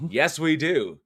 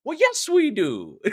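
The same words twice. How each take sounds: First: Said in the usual way. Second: High, slow mock Irish lilt; hammed-up Irish, stretched out slowly; Saint Patty's accent. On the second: Host trying next month's accent, playful mock Irish. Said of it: "That's the accent for Saint Patty's".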